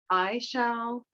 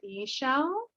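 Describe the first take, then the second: First: The first syllable sounds like 'eye'. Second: The first syllable sounds like 'ee'. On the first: The speaker calls it wrong. "some people say I shall" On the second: The speaker calls it right. "I feel like e shall is more correct"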